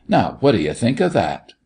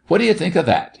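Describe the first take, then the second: First: Mildly indignant challenge; mock indignation. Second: High-pitched, insistent challenge; mock fierce. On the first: Doctor finishing his rant, mildly indignant. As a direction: toss out the question with a touch of outrage. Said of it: "worked himself into a great rage". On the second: Doctor repeats his challenge to the children, fierce. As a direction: hurl the question up high in feigned fury. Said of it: "he repeated fiercely". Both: A narrator's reading.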